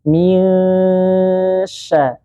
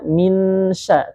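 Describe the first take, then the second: First: The n is blurred with a held nasal hum. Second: The n is pronounced plainly without held nasalization. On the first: The speaker calls it right. "menyamarkan huruf nun sukun disertai dengan dengung dan ditahan" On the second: The speaker calls it wrong. "kita enggak baca minsya"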